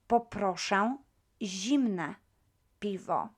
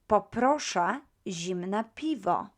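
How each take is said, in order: First: The phrase is said slowly and carefully. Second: The phrase is said at normal speed.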